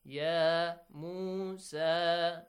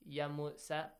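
First: The vowels are prolonged with a long sound. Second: The vowels are cut short and quick. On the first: The speaker calls it right. "So three long vowel sounds" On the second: The speaker calls it wrong. "it's wrong. Because long vowels are pronounced as short vowels"

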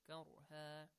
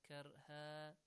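The two takes are said the same way.

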